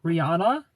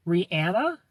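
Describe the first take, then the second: First: Rihanna said "ree-AH-nuh", rising; pronunciation test. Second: Rihanna said "ree-ANN-uh", rising; pronunciation test. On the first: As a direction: say Rihanna with an open "ah", questioning. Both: Shown as a demonstration. Tries both pronunciations.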